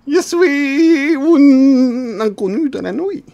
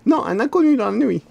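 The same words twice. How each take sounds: First: High, very slow drawn-out stranger voice; mysterious stranger. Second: Inconnu clearly articulated and stressed. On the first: Character introducing himself to the lost man, slow and high. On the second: Correcting the other player's mishearing, stressing inconnu. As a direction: correct him, leaning on inconnu. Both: Acted.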